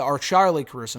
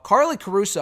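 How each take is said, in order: First: Charlie stressed to fix the slip; name corrected. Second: Said in the usual way. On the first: Real, not acted. Correcting the guest's name, stress on Charlie. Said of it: "not, not Carly". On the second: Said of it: "or Charlie Caruso, not, not Carly".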